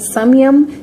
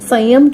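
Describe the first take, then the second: First: The nasal in the first syllable sounds like m. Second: The nasal in the first syllable is not m. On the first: "उसे संस्कृत में संयम" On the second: "जिसे हम हिंदी में संयम कहते हैं"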